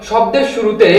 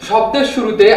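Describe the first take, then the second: The two takes are said the same way.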